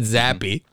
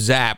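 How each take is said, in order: First: The name is two syllables, final E sounded. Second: The name is one syllable, final E silent. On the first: "pronounce the E" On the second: "I would have called him Zap"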